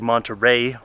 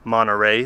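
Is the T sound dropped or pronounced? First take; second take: pronounced; dropped. First: The T sound is clearly pronounced. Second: The T sound is dropped.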